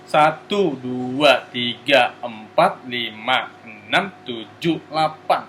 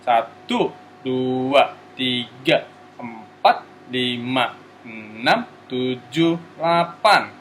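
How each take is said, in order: First: The numbers are counted at a faster pace. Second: The numbers are counted at a slow pace.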